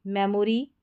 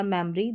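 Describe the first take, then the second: First: मेमोरी in full as "me-mo-ree"; three-syllable pronunciation. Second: मेमोरी shortened to "mem-ree"; two-syllable pronunciation. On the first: Teacher repeating both options for learners, मेमोरी as "me-mo-ree". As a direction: keep the "o" in the middle of मेमोरी. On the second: Teacher repeating both options for learners, मेमोरी as "mem-ree". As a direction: swallow the middle vowel of मेमोरी. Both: Shown as a demonstration. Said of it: "दोनों तरीके से आप pronounce कर सकते हैं".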